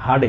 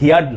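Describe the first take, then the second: First: The vowel sounds like the word 'her'. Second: The vowel sounds like 'here' plus 'yard'. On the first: The speaker calls it right. "ওই যে হার্ড শক্ত, ওটার উচ্চারণে" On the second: The speaker calls it wrong. "এটার উচ্চারণ হিয়ার্ড না"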